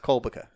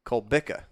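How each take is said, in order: First: "Kolbica" as KOL-buh-kuh; "Kolbica" run together as one word, KOL-buh-kuh; mistaken pronunciation. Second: "Cole Bica" as kohl BIK-uh; "Cole Bica" split clearly, Cole then BIK-uh; correct pronunciation. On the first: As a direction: stress the first syllable of "Kolbica", middle reduced. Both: Shown as a demonstration. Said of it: "not Kolbica".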